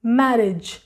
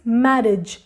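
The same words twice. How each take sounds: Both takes have the same delivery.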